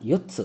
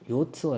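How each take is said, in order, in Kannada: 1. ಈ ಪದವನ್ನು ಗಟ್ಟಿಯಾಗಿ ಒತ್ತಿ ಹೇಳಲಾಗಿದೆ. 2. ಈ ಪದವನ್ನು ಒತ್ತಿ ಹೇಳದೆ ಸರಳವಾಗಿ ಹೇಳಲಾಗಿದೆ. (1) "ಒತ್ತೇಳಬೇಕು" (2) "ಯೋತ್ಸು ಅಲ್ಲ"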